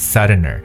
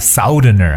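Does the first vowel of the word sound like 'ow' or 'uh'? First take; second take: uh; ow. First: The first vowel is a short central 'uh' sound. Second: The first vowel is the 'ow' sound of south. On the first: The speaker calls it right. "而是Southerner" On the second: The speaker calls it wrong. "不要叫Southerner"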